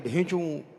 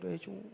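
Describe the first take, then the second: First: The bray is loud and big. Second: The bray is soft and fading.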